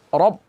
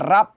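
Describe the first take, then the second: First: The r is heavy with a dark vowel. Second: The r is light with a bright vowel. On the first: The speaker calls it right. "Harus tebal rohnya" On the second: The speaker calls it wrong. "jangan dibaca rab"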